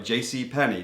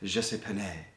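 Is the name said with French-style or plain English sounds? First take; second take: plain English; French-style. First: The name is said with plain English sounds. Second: The name is said with French-style sounds. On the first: It is an ordinary store. "your normal simple department store" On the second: It is a fancier, classier store. "dress it up and call it French"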